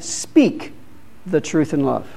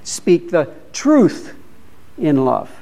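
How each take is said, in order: First: The word speak carries the main stress. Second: The word truth carries the main stress. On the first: The truth should be spoken, not kept silent. "We should speak it" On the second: The truth itself must not be compromised. "Don't compromise"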